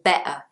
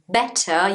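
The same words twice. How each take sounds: First: The middle T is replaced by a glottal stop. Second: The middle T is clearly pronounced. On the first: "the glottal T is when you don't say the T in the word" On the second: "instead of saying"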